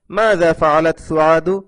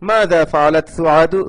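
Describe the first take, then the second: First: মাযা ফাআলাত সুআদু read slowly, word by word; slow for the class. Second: Said in the usual way. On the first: Shown as a demonstration. (ধীরে ধীরে পড়ে শোনানো) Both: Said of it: "আপনারা ভালোভাবে ধরে নিন".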